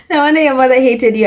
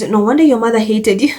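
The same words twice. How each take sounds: First: Faster and punchier, savouring it; gleeful repeat. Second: Said in the usual way. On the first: Real, not acted. Vlogger repeating a comment she loves, gleeful. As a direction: relish every word of it.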